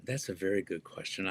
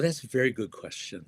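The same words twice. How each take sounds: First: Softer, murmured to himself; quiet musing repeat. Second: Said in the usual way. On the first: Real, not acted. Guest mulls over the host's question, quiet murmur. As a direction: echo it quietly while thinking it over.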